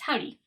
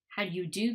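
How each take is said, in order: First: The words collapse into two quick syllables. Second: Every word is said fully and clearly. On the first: "the weak form or reduced form" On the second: "the strong form"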